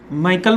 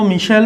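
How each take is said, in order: First: The name is said with a K sound. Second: The name is said with an SH sound. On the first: The speaker calls it wrong. "माइकल बोल दो" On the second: The speaker calls it right. "मिशेल ज़्यादा सही है"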